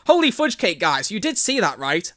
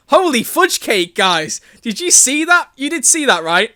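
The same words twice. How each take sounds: First: Said in the usual way. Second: Loud, high excited shout; terrible over-excited reading. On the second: Acted. Reader voicing Tobias asking the guys, over-excited. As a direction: exclaim it high and loud, overdone. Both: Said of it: "that's my terrible reading".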